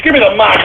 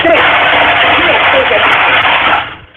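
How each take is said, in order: First: Said in the usual way. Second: Higher, strained, half-voiced demand; strained angry demand. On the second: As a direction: force it out through strain. Demanding the mic louder.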